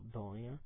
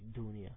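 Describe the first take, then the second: First: The first vowel sounds more like an 'o'. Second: The first vowel sounds like a clear 'u'. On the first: "qua la pronunciano un po' più con una O" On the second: "in Africa la pronunciano con la U più pronunciata"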